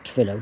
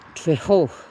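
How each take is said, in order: First: The double L is a plain English L. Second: The double L is a breathy, hissing sound. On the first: "Don't know if they pronounce it Trillo, double L" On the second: "maybe they say in Welsh"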